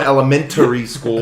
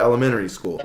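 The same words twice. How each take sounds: First: The T in the word is clearly pronounced. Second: The T in the word is dropped. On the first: "I don't go to" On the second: "We don't pronounce the T's"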